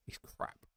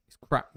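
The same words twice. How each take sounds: First: Breathy whispered aside; unvoiced whisper of disgust. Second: Said out loud with a bit more force; a firmer, slightly louder verdict; emphatic. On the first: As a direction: hiss it under the breath, no voice. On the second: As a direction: land it firmly this time. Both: Real, not acted. Telling Dad to drop turkey.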